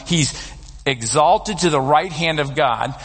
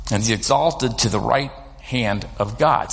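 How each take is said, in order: First: Slower, each word weighed; slow emphatic restatement. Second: Said in the usual way. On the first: Shown as a demonstration. Preacher stressing the point to the congregation, slowly and weightily. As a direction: let the phrase land, slowly.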